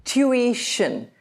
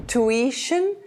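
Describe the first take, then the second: First: Tuition as tyoo-EE-shun, drawn out; British pronunciation. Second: Tuition as too-EE-shun; American pronunciation. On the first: Teacher comparing with American, British pronunciation. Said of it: "the British say". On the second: Teacher comparing with British, American pronunciation. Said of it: "the Americans say". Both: Shown as a demonstration.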